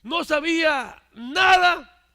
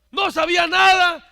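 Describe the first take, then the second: First: Slow, drawn-out and loud; slow emphasis. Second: Higher and much louder, nada hit hard; loud repetition. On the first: Preacher stresses the man knew nothing, slow and weighty. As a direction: stretch out no sabía nada slowly and loudly. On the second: Preacher repeats the man knew nothing, now shouting. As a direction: shout no sabía nada with rising force. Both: Shown as a demonstration.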